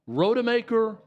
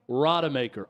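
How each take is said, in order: First: The first syllable sounds like 'ro'. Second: The first syllable sounds like 'ra'.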